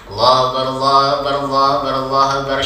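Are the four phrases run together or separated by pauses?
run together. All the phrases are run together without pauses. The speaker calls it wrong. "Yang tidak boleh itu nanti disambung semuanya"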